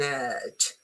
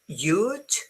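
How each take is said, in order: First: The word begins with a vowel sound. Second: The word begins with a 'y' sound. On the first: The speaker calls it right. "if you pronounce it correctly" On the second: The speaker calls it wrong. "they pronounce it you"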